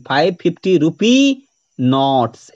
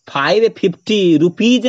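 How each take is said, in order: First: Slow, रुपी open on "ee", नोट्स ending in "ts"; plural on नोट्स. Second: रुपीज with a voiced "j/z" at the end; teacher's counterexample, रुपीज closed by the plural consonant; wrong plural placement. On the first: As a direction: spell it out slowly, no final consonant on रुपी, plural "s" on नोट्स. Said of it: "नोट्स में लगाना है". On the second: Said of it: "नहीं". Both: Shown as a demonstration.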